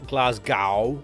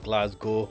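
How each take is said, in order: First: The last syllable rhymes with cow. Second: The last syllable rhymes with go. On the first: The speaker calls it wrong. "as some Americans pronounce it" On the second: The speaker calls it right. "It's Glasgow. ... G O instead of"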